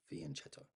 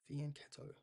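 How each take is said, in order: First: "fianchetto" low and soft, with ch as in chess; "fianchetto" quiet, falling, with a ch sound; soft "ch" pronunciation. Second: "fianchetto" softly, with ch said as k; "fianchetto" said quietly with a k sound; hard "k" pronunciation. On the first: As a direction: try out "fianchetto" as fee-an-CHET-o. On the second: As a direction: try out "fianchetto" as fee-an-KET-o. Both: Shown as a demonstration. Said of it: "the correct way to say it".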